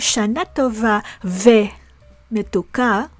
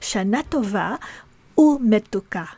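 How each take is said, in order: First: The word 'and' is pronounced 've'. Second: The word 'and' is pronounced 'u'. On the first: The speaker calls it wrong. "No, that's not how we say it" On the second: The speaker calls it right. "We say"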